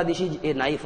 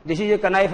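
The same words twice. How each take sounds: First: KNIFE as one syllable starting on N; slow demo with KNIFE said "nife"; correct silent K. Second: "knife" in two beats, k-uh-NIFE; wrong silent-K pronunciation. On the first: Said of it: "होता है". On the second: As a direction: say KNIFE as "kuh-nife", sounding the K. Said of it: "नहीं होता". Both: Shown as a demonstration.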